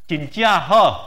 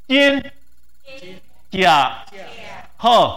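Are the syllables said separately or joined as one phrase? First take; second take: joined; separate. First: The syllables run together with changed tones. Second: Each syllable is said alone with its own tone. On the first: "lắp thành câu thì biến âm như này" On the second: "lặp lại câu thứ nhất"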